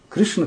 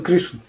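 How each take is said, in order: First: The stress falls on the second syllable. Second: The stress falls on the first syllable. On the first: The speaker calls it wrong. "Не Кришна" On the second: The speaker calls it right. "а в слове Кришна и Рама на первом"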